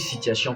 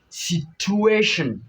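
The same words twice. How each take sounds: First: The stress falls on the last syllable. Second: The stress falls on the second-to-last syllable. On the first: "On écrit situation plutôt" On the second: "L'avant-dernière syllabe va s'accentuer"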